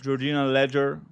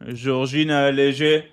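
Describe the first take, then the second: First: The name is said with an English accent. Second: The name is said with a French accent. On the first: The speaker calls it right. "that's better" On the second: The speaker calls it wrong. "can you say that not like in a French accent?"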